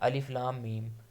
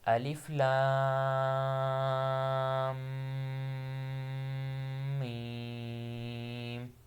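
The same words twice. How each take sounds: First: The lam is short, with no nasal hum. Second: The lam is long, with a nasal hum. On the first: The speaker calls it wrong. "कुछ लोग ऐसे पढ़ देते हैं ... ना उन्हें ऊपर मद का पता है, ना शद का पता होगा, ना गुन्ना का पता होगा" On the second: The speaker calls it right. "लाम को लंबा करना है और मीम पर गुन्ना करना है"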